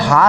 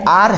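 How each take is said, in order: First: The word begins with an h sound. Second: The word begins with a vowel sound. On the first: The speaker calls it wrong. "अगर हार होता तो तब तो हम लोग इसको ए कर लेते" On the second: The speaker calls it right. "लेकिन ये आर है"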